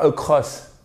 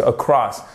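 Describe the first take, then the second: First: Across with a closed, rounded o; wrong across. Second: Across with open second vowel, falling; correct across. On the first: Teacher warning learners off it, wrong across. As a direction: mispronounce "across" with a French o. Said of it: "C'est pas across". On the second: Teacher correcting learners, correct across. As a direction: say "across" with open, stressed -cross. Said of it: "Non, parce que across". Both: Shown as a demonstration.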